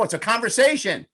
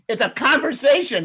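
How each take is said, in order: First: Said in the usual way. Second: Much higher and louder, delighted punchline; emphatic exclamation. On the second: Shown as a demonstration. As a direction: announce the obvious answer with a flourish. Realizes the name, repeats it.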